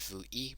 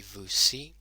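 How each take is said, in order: First: Vous i, with no s sound between the words; vous i, i said without the s; wrong, unlinked. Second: Vous si, with an s sound joining the words; vous si, si starting with an s; correct linking. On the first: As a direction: say vous i with a plain vowel after vous. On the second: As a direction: say vous si with a clear s before si. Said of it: "that is a very awkward way". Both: Shown as a demonstration.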